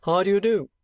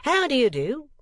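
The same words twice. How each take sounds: First: Loud greeting leaning hard on "do"; higher, louder, with the final "do" weighted; stress on the last word. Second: High "How" swooping down, then rising; altered emphasis. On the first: First gentleman greeting the lady, heavy stress on final "do". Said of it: "laying great stress on the last word". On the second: Second gentleman varying the salutation, emphasis moved to "How". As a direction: hit "How" high and swoop through the rest. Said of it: "altering the emphasis as if to give variety". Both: A narrator's reading.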